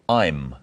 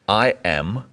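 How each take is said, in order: First: One short syllable, with the vowel sound dropped. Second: Two full words, with the vowel sound kept.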